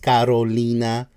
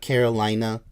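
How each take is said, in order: First: The name is said with a Spanish pronunciation. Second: The name is said with an English pronunciation. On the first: The speaker calls it right. "her name is pronounced Carolina" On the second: The speaker calls it wrong. "not Carolina"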